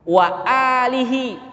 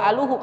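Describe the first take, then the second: First: The vowel after the l is i. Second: The vowel after the l is u. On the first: The speaker calls it right. "Ini baca alihi" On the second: The speaker calls it wrong. "atau wa aluhu"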